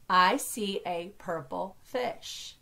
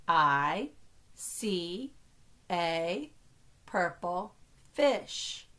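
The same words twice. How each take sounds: First: Said in the usual way. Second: Slow, separated words for counting. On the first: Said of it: "count how many words". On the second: Shown as a demonstration. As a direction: set each word apart with a pause. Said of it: "only count each word as one".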